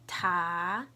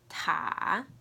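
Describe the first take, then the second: First: It is said with the second tone. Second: It is said with the third tone.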